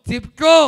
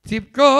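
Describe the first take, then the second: Both takes have the same delivery.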